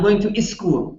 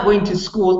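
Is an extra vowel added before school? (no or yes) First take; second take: yes; no. First: A short vowel comes before school's s sound. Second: School starts directly with the s sound. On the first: "Because they have to have a vowel" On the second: "Not I'm not I'm not going to school"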